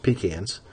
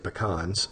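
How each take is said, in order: First: The word is pronounced in the Southern way. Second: The word is pronounced in a non-Southern way. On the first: The speaker calls it right. "It's pecans" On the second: The speaker calls it wrong. "in the South we don't say pecans"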